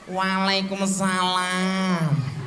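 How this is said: It is said in a coquettish, playful way. The wife welcomes her husband warmly. The speaker calls it right. "supaya ibunya endel juga"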